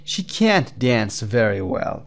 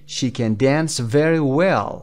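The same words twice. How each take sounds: First: Slow, can't held long and emphasized; stress on can't. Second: Short unstressed can, weight on dance and well; weak can. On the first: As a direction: draw out can't before dance. (can't کشیده و با تأکید) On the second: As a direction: slide over can to a stressed dance. (can ضعیف، تأکید روی dance) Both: Shown as a demonstration. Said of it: "can you hear the difference".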